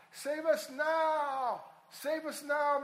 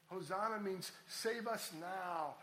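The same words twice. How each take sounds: First: Loud, high, slow plea "Save us now"; pleading cry. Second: Said in the usual way. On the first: Shown as a demonstration. Preacher crying out the meaning of Hosanna, loud and pleading.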